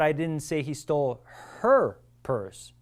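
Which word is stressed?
her. The word "her" is stressed. It was another person's purse that was stolen. "It was that other dude's purse over there that this person stole"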